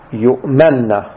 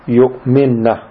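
First: The m is followed by an a vowel. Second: The m is followed by an i vowel. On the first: They are trusted, from the word for trustworthiness. "بفتح الميم" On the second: They believe, from the word for faith. "بكسر الميم"

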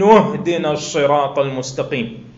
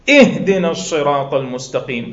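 First: The opening glottal stop is dropped, joined to before. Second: The opening glottal stop is clearly pronounced. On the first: The word is joined to the preceding verse. "هذا عند الدرج" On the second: The recitation starts with this word. "أما عند الابتداء ماذا تقول؟"

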